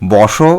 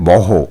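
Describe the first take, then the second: First: The word ends with an 'sh' sound. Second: The word ends with an 'h' sound.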